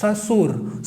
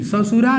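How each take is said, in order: First: ससुर ending cleanly on r, no vowel after; ससुर as the correct form; correct pronunciation. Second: ससुरा with a trailing a on the end; ससुरा, said as the incorrect version; wrong pronunciation. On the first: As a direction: say ससुर crisply, the right way. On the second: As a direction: say ससुरा as the wrong form to avoid. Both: Shown as a demonstration. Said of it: "ससुरा नहीं बोलना".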